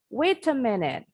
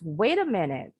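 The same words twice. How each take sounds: First: The T is a clear true T, British style. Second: The T sounds like a quick D, American style.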